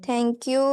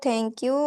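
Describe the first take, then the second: The two takes are said the same way.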